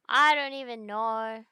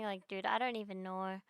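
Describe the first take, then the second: First: Louder and slower, stretching it out in disbelief; exasperated louder repeat. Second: Said in the usual way. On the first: Real, not acted. Streamer to chat, fed up with bans, exasperated loud slow repeat. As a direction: lean into it, exasperated, drawn out.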